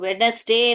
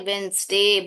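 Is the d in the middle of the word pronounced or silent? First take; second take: pronounced; silent. First: The d and middle vowel are clearly pronounced. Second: The d is silent, giving two syllables. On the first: The speaker calls it wrong. "इसको वेडनेसडे नहीं बोलते" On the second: The speaker calls it right. "वेंसडे बोलते हैं, डी silent है"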